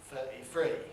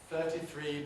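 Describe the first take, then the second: First: The middle t is a glottal stop. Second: It begins with th sounds and a clear t.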